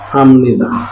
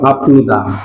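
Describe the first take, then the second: First: An m sound comes before nida. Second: A p sound comes before nida. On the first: The speaker calls it right. "এটা তো ম হয়ে যাবে" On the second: The speaker calls it wrong. "হওয়ার কথা ছিল হাপনিদা"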